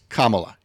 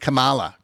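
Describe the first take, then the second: First: The name begins like 'comma', then 'la'. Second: The name does not begin like 'comma'. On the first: The speaker calls it right. "comma, la" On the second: The speaker calls it wrong. "people intentionally mispronouncing the vice president's name"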